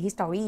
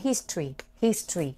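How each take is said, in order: First: "history" with a full middle, his-tor-ree; spelling pronunciation. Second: "history" shortened to HIS-tree; correct history. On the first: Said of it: "หน้าตามันคือ history อย่างเงี้ย". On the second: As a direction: say "history" without the middle vowel, HIS-tree. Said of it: "แต่มันเอา history history". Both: Shown as a demonstration.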